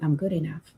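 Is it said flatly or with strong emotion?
flatly. It is said flatly, without conviction.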